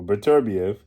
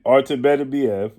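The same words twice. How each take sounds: First: "Beterbiev" as buh-TER-bee-ev; alternative pronunciation. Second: "Beterbiev" as BEH-teh-bee-ev; first pronunciation. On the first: Boxing commentator repeating both versions of the name, alternative pronunciation. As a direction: put the weight on TER in "Beterbiev". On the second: Boxing commentator repeating both versions of the name, first pronunciation. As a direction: open "Beterbiev" on a short BEH, four beats. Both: Shown as a demonstration. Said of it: "however you so choose to pronounce his name".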